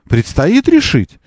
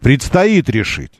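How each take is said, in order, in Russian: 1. Произнесено с вопросительной интонацией. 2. Произнесено твёрдой, утвердительной интонацией. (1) "не вопросительно" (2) "утвердительно говорю"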